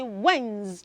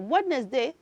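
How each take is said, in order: First: No d sound is pronounced in the middle. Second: A d sound is pronounced in the middle. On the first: The speaker calls it right. "note that that word has a silent letter D. So you're not going to say d" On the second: The speaker calls it wrong. "So we don't say Wednesday"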